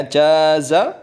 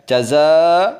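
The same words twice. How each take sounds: First: "jaza" with the ja held long and the za short; "jaza" with a long, stressed first syllable; long first vowel. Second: "jaza" with a short ja and a long, loud za; "jaza" with the final syllable held long and louder; long second vowel. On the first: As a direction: draw out the jim in "jaza". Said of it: "Kalau kita baca panjang jimnya". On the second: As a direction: stretch the za at the end of "jaza". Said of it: "Kalau kita baca panjang zanya". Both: Shown as a demonstration.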